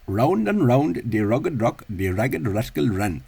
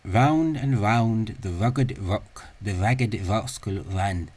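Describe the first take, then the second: First: The R sounds are retroflex approximants. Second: The R sounds are labiodental approximants. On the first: "retroflexive or is the or of um, found in Indian English" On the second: "this sound is actually a labiodental uh, approximant"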